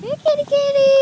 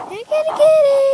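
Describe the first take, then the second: First: High sing-song kitty call; calling a cat. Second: High, louder sing-song kitty call; calling a cat, louder. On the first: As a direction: coax the cat out, pitched up. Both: Real, not acted.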